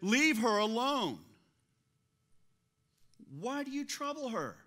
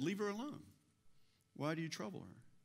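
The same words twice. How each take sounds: First: It is said in a stern, forceful tone. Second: It is read in a calm, plain tone.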